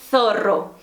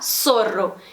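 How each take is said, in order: First: The Z is said like English TH. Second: The Z is said like an S.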